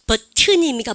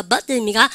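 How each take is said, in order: First: "버튼" with the 트 sounded out in full; T fully pronounced. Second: "버튼" American-style, the 트 swallowed into a final n; T left unpronounced. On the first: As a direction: pronounce the T in "버튼" clearly, British-style. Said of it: "트 발음 다 나옵니다". (영국식으로 "버튼"의 트를 또렷하게) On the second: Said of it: "미국 애들은 여러분들 발음하지 않는다". (미국식으로 "버튼"의 트를 삼켜서) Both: Shown as a demonstration.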